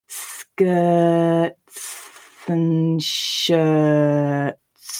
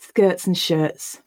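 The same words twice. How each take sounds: First: It is slow, with each t clearly pronounced. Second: It is at normal speed, with the ts reduced. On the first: "a really slow read-through, ... I do pronounce the ts and s in the ts cluster quite clearly" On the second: "Now we're going to read it at normal speed and just notice what happens to those t sounds"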